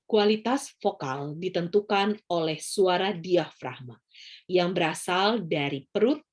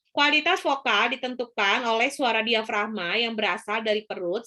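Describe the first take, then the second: First: The voice is full and resonant from the belly. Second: The voice is thin and pushed from the throat. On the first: "Itu adalah suara diafragma" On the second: "kalau suara tenggorokan, dia itu seperti ini"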